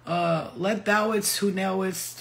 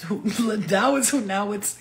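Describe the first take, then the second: First: Slow, solemn mock-biblical phrasing; mock Jesus talk. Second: Laughter breaking into the fake biblical line; mock Jesus talk, laughing. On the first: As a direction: drawl it out like a pompous prophet. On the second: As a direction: try the holy voice again but crack up. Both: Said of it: "talk like, like Jesus".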